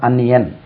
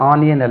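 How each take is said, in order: First: The word begins with a short 'a' vowel. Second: The word begins with a long 'aa' vowel. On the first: The speaker calls it right. "இதுக்கு அன்னியன் உச்சரிப்பு" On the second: The speaker calls it wrong. "இது ஆனியன் அல்ல"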